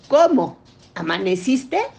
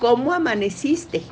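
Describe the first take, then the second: First: It is said as two separate questions. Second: It is said as one single question.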